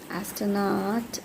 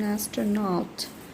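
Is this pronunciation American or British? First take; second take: American; British. First: It is said with an American accent. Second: It is said with a British accent. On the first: "in American English" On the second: "in British English"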